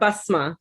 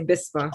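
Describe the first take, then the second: First: The first vowel sounds like 'a'. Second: The first vowel sounds like 'i'. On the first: This is the Arabic way of saying the name. "in the Arabic it's more basma" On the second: This is the Pakistani way of saying the name. "because my family's from Pakistan, they say bisma"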